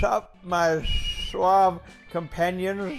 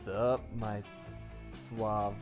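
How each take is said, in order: First: It is said in a Gopher impression voice. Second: It is said in the speaker's natural voice.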